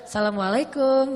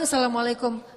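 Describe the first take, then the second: First: It is said in a flirtatious, teasing tone. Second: It is said as a plain, ordinary greeting.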